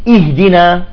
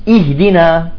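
The two takes are said the same way.

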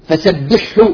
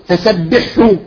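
Both takes have the same delivery.

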